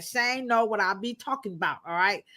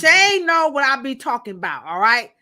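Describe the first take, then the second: First: Said in the usual way. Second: Sassy delivery. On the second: Shown as a demonstration. Host shows the sassy way to say it to chat. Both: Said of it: "I gotta say it like that".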